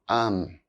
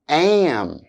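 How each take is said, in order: First: The word is reduced with a weak vowel. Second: The word is said fully with its full vowel. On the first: "then their weak forms" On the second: "here are the strong and weak forms of auxiliary verbs"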